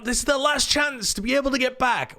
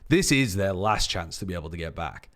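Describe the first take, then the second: First: It is high, fast and strained. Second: It is low, slow and conversational. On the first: The chance is right there for the taking. The speaker calls it wrong. "with so much strain in your voice" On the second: It is the final chance. The speaker calls it right. "the lower part of your range and the slower pace"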